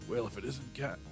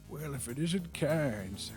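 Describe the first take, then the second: First: It is said in the speaker's ordinary voice. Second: It is said in a put-on old man's voice. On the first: The speaker calls it wrong. "That's not, that's not an old man voice" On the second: The speaker calls it right. "It took me two goes to get my old man voice on"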